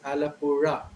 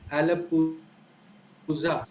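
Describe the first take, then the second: First: The last consonant is a plain r sound. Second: The last consonant is a retroflex r sound. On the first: The speaker calls it wrong. "most people who are not aware of this sound pronounce it as" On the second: The speaker calls it right. "there's a place in Kerala called"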